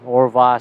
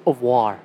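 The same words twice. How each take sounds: First: Au revoir said the American way, hard English r; Anglicized au revoir, r hard and English; American-style au revoir. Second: Au revoir with a soft French vwar ending. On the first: A Canadian mocking his own American-sounding French, saying au revoir. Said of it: "I sound like a fucking American speaking French". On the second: Correcting himself to his viewers, saying au revoir the French way. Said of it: "It's au revoir". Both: Shown as a demonstration.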